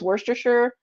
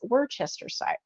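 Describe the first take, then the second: First: The word is said in a shortened, simplified form. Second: The word is said in its full form. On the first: This is how most people say it. The speaker calls it wrong. "most people say just" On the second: This is the actual pronunciation. The speaker calls it right. "the actual pronunciation is"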